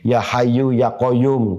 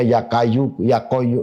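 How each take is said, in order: First: The names begin with throaty Arabic sounds. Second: The names begin with a plain k sound. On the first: The speaker calls it right. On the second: The speaker calls it wrong.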